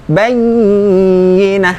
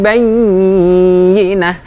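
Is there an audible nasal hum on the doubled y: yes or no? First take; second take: yes; yes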